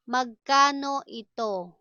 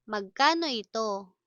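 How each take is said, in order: First: Deliberate, words held apart. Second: Said in the usual way. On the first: Shown as a demonstration. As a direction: stretch the syllables for learners. Slow model, then natural speed.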